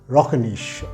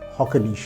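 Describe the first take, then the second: First: The name is said in a foreign, non-local way. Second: The name is said the way locals say it.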